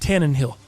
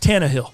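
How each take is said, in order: First: An extra n sound comes before 'hill'. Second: No extra n sound comes before 'hill'. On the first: The speaker calls it wrong. "the tight thing is you calling him Tannenhill" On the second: The speaker calls it right. "and it's Tannehill"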